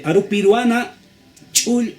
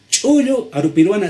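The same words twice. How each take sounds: First: "chul" said short, the final vowel dropped; clipped wrong form. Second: "Chullo" said high and loud with its full final vowel; full vowel form. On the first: Teacher showing the form the dictionary lacks. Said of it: "no vas a encontrar". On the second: Teacher showing the form the dictionary has. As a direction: sound out "Chullo" complete. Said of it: "sí vas a encontrar". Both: Shown as a demonstration.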